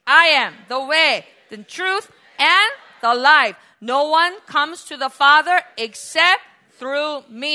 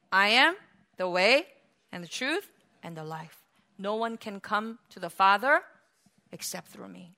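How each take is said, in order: First: Emphatic, slowing scripture declaration; loud proclamation. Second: Low, soft, gently paused reassurance; kind, patient. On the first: Shown as a demonstration. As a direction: declare it loudly for all to join in, weighting each phrase. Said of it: "Jesus answered altogether loudly". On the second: Acted. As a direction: explain it tenderly and patiently, sinking to near-quiet. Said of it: "so kind and so patiently and say".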